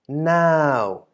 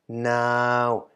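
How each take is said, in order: First: The syllable is said with a falling tone. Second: The syllable is said with a mid tone. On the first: "resulting in a falling syllable" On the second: "middle tone version"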